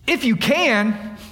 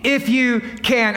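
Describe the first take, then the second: First: If said slow and weighted; incredulous quote. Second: If stressed, drawn out slowly; incredulous echo. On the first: Preacher quoting Jesus to the crowd, slow and weighted. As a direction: lean on If, slow and doubtful. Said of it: "Jesus said to him". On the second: Preacher mocking the doubt to the congregation, slowly. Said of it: "What do you mean". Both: Shown as a demonstration.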